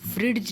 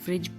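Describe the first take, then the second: First: A distinct d sound is heard before the j. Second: No d sound is heard before the j. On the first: The speaker calls it wrong. "नहीं पढ़ रहे हैं हम इसको" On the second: The speaker calls it right. "केवल फ्रिज पढ़ रहे हैं"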